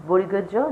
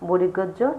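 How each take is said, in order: Both takes have the same delivery.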